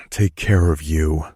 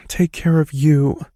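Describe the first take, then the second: First: Said in the usual way. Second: Mumbled woman's reply. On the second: A narrator's reading. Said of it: "mumbling into my shoulder".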